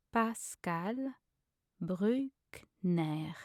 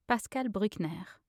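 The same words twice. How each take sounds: First: Slow French name with long gaps; syllable by syllable. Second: Said in the usual way. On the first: Shown as a demonstration. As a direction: spell out each syllable by ear. Pronunciation guide, broken-down take.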